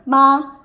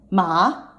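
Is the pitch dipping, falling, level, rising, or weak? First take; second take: level; dipping. First: The pitch stays high and level. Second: The pitch falls, then rises again. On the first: It means mother. "first tone" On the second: It means horse. "the third tone"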